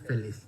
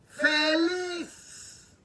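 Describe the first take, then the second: First: The word is said flatly, without energy. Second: The word is said loudly, with joyful energy. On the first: The speaker calls it wrong. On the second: The speaker calls it right.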